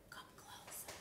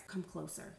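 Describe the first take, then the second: First: Barely audible whisper; very soft conspiratorial beckoning; secretive whisper. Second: Soft, low beckoning; hushed, lower invitation; confiding. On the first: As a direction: whisper it as if pulling a friend in close. Repeats closer for a secret. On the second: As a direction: draw a friend in quietly for a secret. Draws viewer in for secret. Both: Pretend.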